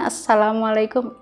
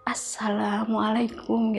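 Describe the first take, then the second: First: It is said at normal loudness. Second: It is said softly and quietly.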